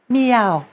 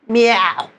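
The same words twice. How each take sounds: First: The sound flows freely without any throat constriction. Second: The sound is squeezed and constricted in the throat. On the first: The speaker calls it right. "It has to be flowing freely without any constriction" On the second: The speaker calls it wrong. "am I constricting the sound like this?"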